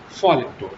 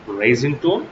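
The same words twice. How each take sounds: First: "falling tone" gliding downward. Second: "Rising tone" climbing steeply on "tone". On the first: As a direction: let the pitch drop through "falling tone". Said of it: "you have to fall your voice". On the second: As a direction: lift the pitch at the end of "Rising tone". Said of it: "you have to raise your voice". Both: Shown as a demonstration.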